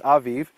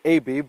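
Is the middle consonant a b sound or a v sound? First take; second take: v sound; b sound. First: The middle consonant is a v sound. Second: The middle consonant is a b sound. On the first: This is how it is said in Hebrew. "but in Hebrew it's Aviv" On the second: This is how some English speakers say it. "some people in English pronounce it Abib"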